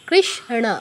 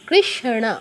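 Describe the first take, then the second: No difference in how they are said.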